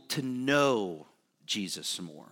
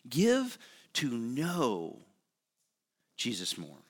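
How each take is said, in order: First: Said in the usual way. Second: Slow it right down, let it land; slow emphatic repeat. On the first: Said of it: "first take". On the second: Acted. Preacher urging the congregation, slow and hushed. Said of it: "repeated slowly for emphasis".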